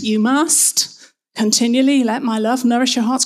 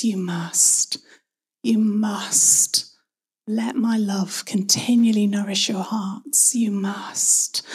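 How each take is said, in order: First: Mock scolding command, firm and brisk; finger-wagging. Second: Loving invitation. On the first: Preacher showing how the verse once sounded, finger-wagging demand. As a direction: lay it down like a telling-off. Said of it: "a bit of a finger wagging moment". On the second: Acted. God who cares deeply inviting each one, loving and gentle. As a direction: offer it tenderly, no pressure on it. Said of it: "A loving invitation from a God who cares deeply".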